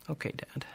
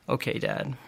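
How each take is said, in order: First: Whispered, resigned and small. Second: Said in the usual way. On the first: Retold or imitated. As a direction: give in under your breath. Son reluctantly agrees, resigned.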